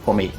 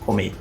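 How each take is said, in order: First: The final R is nearly cut off. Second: The final R is nearly cut off.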